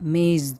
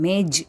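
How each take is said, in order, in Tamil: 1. சொல் z ஒலியில் முடிகிறது. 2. சொல் j ஒலியில் முடிகிறது. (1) "அந்த ஜாக்கு கீழே புள்ளி இருந்தால்" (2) "இல்லை"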